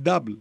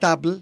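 First: The word starts with a voiced d sound. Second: The word starts with a voiceless t sound. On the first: The speaker calls it right. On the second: The speaker calls it wrong. "Όχι ταμπλ"

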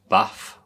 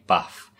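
First: The word is said in the local accent. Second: The word is said in the standard accent. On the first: "The way she says baths" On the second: "we say bath"

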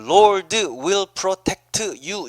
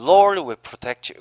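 First: The d in 'Lord' is clearly pronounced. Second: The d in 'Lord' is almost silent. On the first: The speaker calls it wrong. "이렇게 안 한단 말이에요" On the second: The speaker calls it right. "드 발음은요, 거의 안 나요"

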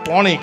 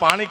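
First: It is said with an 'o' vowel, northern dialect. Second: It is said with an 'aa' vowel, standard form. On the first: "ઉત્તર ગુજરાતની ભાષામાં ચાવડા સાહેબ આને પોણી કહે" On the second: "શિષ્ટ ભાષામાં આને પાણી કહેવાય"

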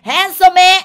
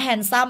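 First: It is said with a Japanese-style pronunciation. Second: It is said with plain English pronunciation. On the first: The speaker calls it wrong. "แม่เป็นญี่ปุ่น, handsome ไม่ได้" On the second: The speaker calls it right. "อันนี้ออกเสียงว่า"

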